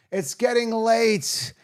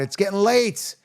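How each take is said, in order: First: Slow, higher, drawn out like a sigh; weary drawn-out. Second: Said in the usual way. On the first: Real, not acted. Late-night host telling viewers he's worn out, weary drawl. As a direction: let it stretch out tiredly. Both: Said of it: "Oh my God".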